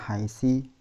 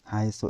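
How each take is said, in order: First: The word ends with an i vowel. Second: The word ends with an u vowel. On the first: The speaker calls it wrong. "tidak akan berubah menjadi haisa haisi" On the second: The speaker calls it right. "Haitsu ini selamanya mabni dom"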